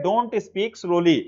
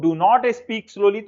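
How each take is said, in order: First: "Don't" said as one smooth contracted syllable, very slow. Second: "Do not" split into two separate stiff words, very slow; awkward full do not. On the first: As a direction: model the fluent contraction "Don't", word by word. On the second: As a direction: show how clunky "Do not" sounds spelled out. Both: Shown as a demonstration. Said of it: "तो अजीब सा लग रहा है ना".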